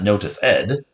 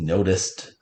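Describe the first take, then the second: First: The ending is a separate extra syllable. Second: The ending is a plain t sound. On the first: The speaker calls it wrong. "It's not notice ed" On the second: The speaker calls it right. "Has more of a t sound"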